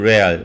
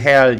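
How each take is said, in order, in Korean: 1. 이 단어는 R 같은 소리로 시작해요. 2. 이 단어는 H 소리로 시작해요.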